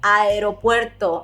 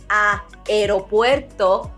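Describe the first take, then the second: First: The first two vowels are merged together. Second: The first two vowels are said separately. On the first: The speaker calls it right. "just merge them together" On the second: The speaker calls it wrong. "instead of saying aeropuerto"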